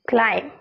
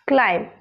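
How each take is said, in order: First: The final b sound is silent. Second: The final b sound is silent.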